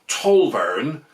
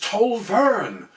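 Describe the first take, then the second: First: The stress is on the first syllable. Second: The stress is on the second syllable. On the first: This is how outsiders say it. The speaker calls it wrong. "All the Grockles say it like that" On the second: This is how locals say it. The speaker calls it right. "with the stress on the second syllable"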